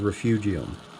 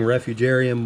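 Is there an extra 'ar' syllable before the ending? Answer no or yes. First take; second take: no; yes. First: No extra syllable comes before the ending. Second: An extra 'ar' syllable comes before the ending. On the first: The speaker calls it right. "the word is refugium" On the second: The speaker calls it wrong. "I've been saying that wrong"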